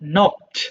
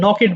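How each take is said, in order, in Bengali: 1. শেষে শুধু একটা সাধারণ ব্যঞ্জনধ্বনি থাকে। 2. শেষের অংশটা একটা অতিরিক্ত দল হিসেবে বলা হয়।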